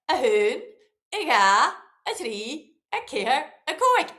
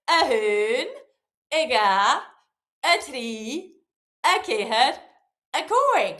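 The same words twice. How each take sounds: First: It is counted a bit faster. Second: It is counted at a moderate pace.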